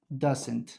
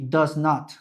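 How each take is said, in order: First: Merged quickly into one short word. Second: Two separate full words are said.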